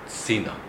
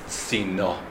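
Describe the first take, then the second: First: The stress is on the first syllable. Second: The stress is on the last syllable. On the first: It means towards Tzin. The speaker calls it right. "the emphasis needs to be on the first syllable" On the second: It means a shield. The speaker calls it wrong. "You read the word Sina"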